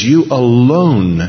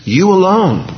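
First: "You alone" slow, weighted and louder; emphatic you alone. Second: "You alone" much higher and louder, ringing out; emphatic you alone. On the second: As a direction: cry out "You alone" high. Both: Shown as a demonstration.

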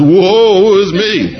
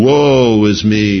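First: Very slow, high, laughing woe; hammed-up despair, drawn out and laughing; mock lament. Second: Slow, solemn woe; slow prophetic lament. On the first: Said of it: "he says". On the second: Retold or imitated. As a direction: draw it out like a grave confession. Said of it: "Isaiah saying".

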